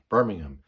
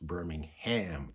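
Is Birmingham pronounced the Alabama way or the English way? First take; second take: English way; Alabama way. First: It is said the way England's city is said. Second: It is said the way Alabama's city is said. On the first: The speaker calls it right. "Birmingham is the way you want to pronounce it" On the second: The speaker calls it wrong. "it's not pronounced Birmingham for all you people out there. Birmingham is down in Alabama"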